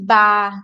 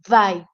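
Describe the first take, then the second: First: The word begins with a B sound. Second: The word begins with a V sound. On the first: The speaker calls it wrong. "A pronúncia da letra V não é" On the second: The speaker calls it right. "é vai"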